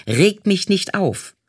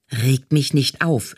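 First: Mild mock yell. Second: Said in the usual way. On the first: A narrator's reading. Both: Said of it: "schrie die Aufnahmeleiterin".

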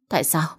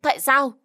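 First: Said in the usual way. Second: "Tại sao?" thrown out much higher, a sobbing wail; anguished cry. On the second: Acted. Mỹ An, told the baby is lost, wails "Tại sao?" to her husband. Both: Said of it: "bật khóc nức nở".

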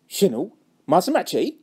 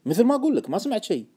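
First: Openly sceptical check; doubting question. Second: Raised start, settling into a statement; firm denial. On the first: Friend doubting the trader heard nothing, sceptical. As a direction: question it as if you don't believe it. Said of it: "كان شاك بصحة كلامي". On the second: Trader denying any tip to a doubting friend, insistent. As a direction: restate it to close the matter. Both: Acted.

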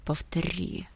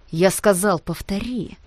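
First: A stranger's voice, hard and cold. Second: Harsh demand. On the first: Boy to a rival, menacing quiet threat. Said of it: "сказал он чужим голосом, злым и твёрдым". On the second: Repeated threat in fight. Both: A narrator's reading.

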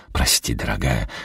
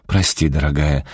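First: Sheepish apology. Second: Said in the usual way. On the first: A narrator's reading. Wade apologizes again.

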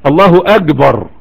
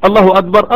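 First: أكبر said slowly as "agbar" with a hard G; الله أكبر pronounced "Allahu agbar", slow and deliberate; Gulf pronunciation. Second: Said in the usual way. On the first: Retold or imitated. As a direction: imitate a Gulf speaker saying الله أكبر with G for K. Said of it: "فيقوم محول القاف لإيه؟ لجيم". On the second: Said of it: "إيش يا شيخ هذا".

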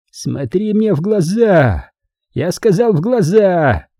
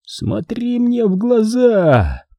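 First: Slow, menacing villain hiss; sinister hiss. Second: Very slow, high, eerie hiss; sinister hissing. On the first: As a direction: hiss the order slowly. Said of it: "зловеще прошипел Манфред". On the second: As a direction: stretch it out like a dream. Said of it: "раздалось зловещее шипение". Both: Acted.

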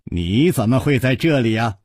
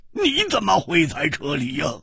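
First: Pleasantly amazed question, near everyday pitch; happy surprise. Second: High, giddy, delighted question; laughing exclamation. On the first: Rider to his old friend found here, mildly amazed. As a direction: ask in cheerful disbelief. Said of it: "大叫道". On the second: Friend to his long-lost pal, laughing and overjoyed. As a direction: ask as if bursting with glee. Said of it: "也跳起来大笑道". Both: A narrator's reading.

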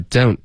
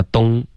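First: "don't" with a full oh-oo glide; correct diphthong. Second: "东" as dong in place of don't; Chinese-sounding mispronunciation. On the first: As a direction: round through the vowel of "don't". (“don't”双元音发完整) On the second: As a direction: mimic a learner saying "东" for don't. (模仿错误发音，don't发成“东”) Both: Shown as a demonstration. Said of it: "不要发东".

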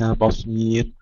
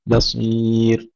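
First: بصير with a thick, dark ب; heavy ba. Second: Slow بصير, thin ب then heavy ص; light ba, heavy sad. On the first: Teacher shows the heavy ba mistake, wrong. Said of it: "ترقيق الباء وليس بصير". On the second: Teacher models light ba and heavy sad, slowly. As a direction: stretch بصير, light ب and thick ص. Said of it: "ترقيق الباء وتفخيم الصاد". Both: Shown as a demonstration.

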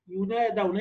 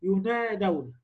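First: "ينادون" repeated with the same light nasal hum; "ينادون" بغنة خفيفة مرة أخرى; ghunna demo on "ينادون". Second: "ينادون" recited with a light nasal hum on the noon; "ينادون" بغنة خفيفة في الخيشوم; ghunna demo on "ينادون". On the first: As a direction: say "ينادون" again, humming the noon through the nose. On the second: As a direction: say "ينادون" while feeling the nose buzz on the noon. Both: Shown as a demonstration. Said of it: "حط إيدك كده على الخيشوم".

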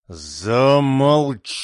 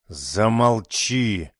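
First: Very slow, drawn-out angry command; almost scream at her; near shout. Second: Slow, stern command. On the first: Mother almost yelling at her daughter, angry. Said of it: "чуть ли не кричала на неё Джоанна". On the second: Mother silencing her pleading daughter, stern and slow. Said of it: "строго сказала Джоанна". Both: A narrator's reading.

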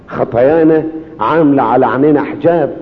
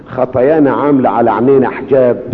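Both takes have the same delivery.

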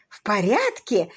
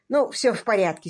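First: Drawn-out, mildly incredulous echo; slow, astonished query; exclaimed question. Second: Mildly hearty reassurance; cordial. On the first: Lady echoes the detective, crying out in mild disbelief. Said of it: "вскричала леди Констанс". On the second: Detective reassures his clients, cordially. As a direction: say it cordially, lightly. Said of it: "сердечно сказал он". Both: A narrator's reading.

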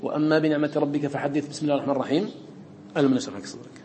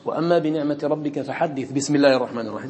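First: Recitation with a stop after the basmala; forbidden way recited. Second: Recited connected. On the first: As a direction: demonstrate the wrong recitation. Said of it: "لا تقول". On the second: Teacher demonstrates joining the surah end to the basmala, recited. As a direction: recite it joined without stopping. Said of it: "ها وصلتها". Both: Shown as a demonstration.

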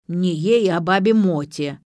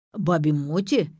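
First: Louder, huffy correction; miffed old woman, lightly acted; offended. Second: Slow, puzzled echo; understated, uncertain check; asking back. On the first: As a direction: correct them, taking offence. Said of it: "обиделась старушонка". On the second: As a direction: repeat it as a question. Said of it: "переспросил Пётр". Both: A narrator's reading.

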